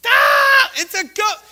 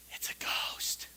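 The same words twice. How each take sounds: First: High, loud panicked cry; terrified shout. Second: Whispered in fear; ghostly whisper. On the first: The disciples in the storm shouting in terror. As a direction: scream it like you have seen a ghost. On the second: The disciples in the boat to each other, a terrified whisper. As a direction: breathe it like a frightened secret. Disciples see figure on water. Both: Acted.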